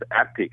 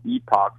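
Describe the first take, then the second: First: It is said like the word epic. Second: It is said with an 'ock' ending. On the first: "some people pronouncing as Epic" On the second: "someone pronouncing as Epoch"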